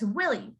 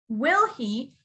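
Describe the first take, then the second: First: The h drops, sounding like one word, Willie. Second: The two words are said separately and clearly. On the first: "in a conversation, you would say it as will he" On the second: "you would usually say this as will he"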